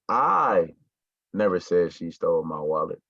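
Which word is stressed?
I. The stress falls on the word I. Someone else said it. "So that means that I didn't say it, but one of y'all said it"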